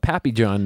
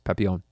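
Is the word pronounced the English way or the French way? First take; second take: English; French. First: The word is said with an English pronunciation. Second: The word is said with a French pronunciation. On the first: The speaker calls it wrong. "I always want to call it Papillon now" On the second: The speaker calls it right. "pronounce this in French. It's Papillon"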